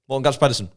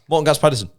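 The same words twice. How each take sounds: No difference in how they are said.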